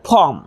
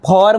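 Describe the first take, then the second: First: The r sound is silent. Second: The r sound is pronounced strongly. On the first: The speaker calls it right. "પરંતુ ફોર્મ" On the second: The speaker calls it wrong. "ફોર્મ નહીં"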